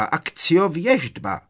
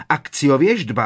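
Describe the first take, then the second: First: Drawn-out desperate cry. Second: Shouted spell. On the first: Bellatrix summoning again. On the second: Bellatrix summoning the prophecy. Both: A narrator's reading.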